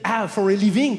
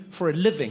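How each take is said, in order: First: Put-on loud, higher French-accented echo. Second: Said in the usual way. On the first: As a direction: repeat it back in a French accent. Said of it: "go up to a French person". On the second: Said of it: "you're like".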